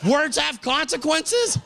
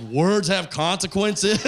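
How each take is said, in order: First: Incredulous. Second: Slow, weighty delivery; solemn pronouncement. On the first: Real, not acted. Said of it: "That's my catchphrase?". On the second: Retold or imitated. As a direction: deliver it like wisdom. Blind Daryl repeating catchphrase.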